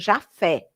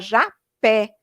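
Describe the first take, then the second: First: The middle consonant is an F sound. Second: The middle consonant is a P sound. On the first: The speaker calls it wrong. "com um som de F" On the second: The speaker calls it right. "era Japé, com P H"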